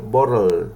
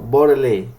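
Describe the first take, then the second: First: The word ends on an L sound. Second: The word ends with an extra vowel sound. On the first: The speaker calls it right. "digo bottle, termina en sonido L" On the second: The speaker calls it wrong. "Yo no digo bottle"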